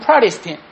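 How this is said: It is said with an American English accent. "미국 사람들은 프라리스틴 이렇게 발음하고"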